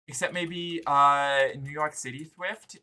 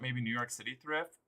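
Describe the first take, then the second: First: It is said in a cutesy uwu voice. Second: It is said in a normal voice.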